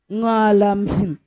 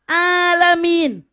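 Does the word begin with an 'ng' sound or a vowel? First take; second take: ng sound; vowel. First: The word begins with an added 'ng' sound. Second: The word begins directly with a vowel sound. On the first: A Javanese learner's tongue cannot drop the habit. The speaker calls it wrong. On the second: This is the form the teacher models. The speaker calls it right.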